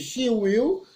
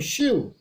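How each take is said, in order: First: It is said as two separate syllables. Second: It is said as one contracted syllable. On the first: "duas emissões de voz" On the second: "você acaba dizendo só uma"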